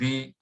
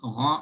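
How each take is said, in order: First: The syllable sounds light with a thin vowel. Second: The syllable sounds heavy with a full, open vowel. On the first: The speaker calls it wrong. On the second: The speaker calls it right.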